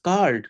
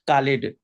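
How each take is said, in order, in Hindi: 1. अंत बिना किसी अतिरिक्त सिलेबल के शब्द से जुड़ जाता है। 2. अंत एक अतिरिक्त सिलेबल की तरह बोला जाता है। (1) "जस्ट" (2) "ऐसा वर्ड बोले हैं जो सही साउंड नहीं निकल रहा था"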